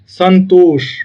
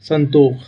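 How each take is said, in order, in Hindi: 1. शब्द का अंत sh ध्वनि से होता है। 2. शब्द का अंत kh ध्वनि से होता है।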